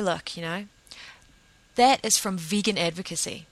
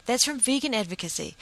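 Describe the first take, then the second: First: Said in the usual way. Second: "vegan" pitched up and leaned on, falling after; stress on vegan. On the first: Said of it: "I say". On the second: Retold or imitated. Telling people again where vegans come from, hitting "vegan". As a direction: land hard on "vegan", then let it drop.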